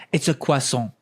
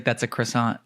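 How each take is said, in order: First: "croissant" said the French way, kwah-SOHN; French pronunciation. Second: Said in the usual way. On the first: Retold or imitated. Customer corrects a bakery worker, "croissant" in French pronunciation. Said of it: "pronouncing croissant properly". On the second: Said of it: "How do you say this?".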